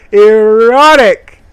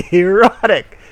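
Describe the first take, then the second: First: Loud high drawn-out erotic; mock-dramatic proclamation; hammed-up shout. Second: Mock excited. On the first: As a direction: bellow it like a game announcer.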